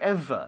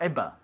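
First: The middle consonant is a clear v sound. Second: The middle consonant is not a v sound. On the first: The speaker calls it right. "Have you ever" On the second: The speaker calls it wrong. "not ever"

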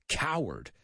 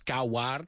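First: The second vowel sounds like Spanish e. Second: The second vowel sounds like Spanish a. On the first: The speaker calls it right. "la A es como una E" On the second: The speaker calls it wrong. "No es coward"

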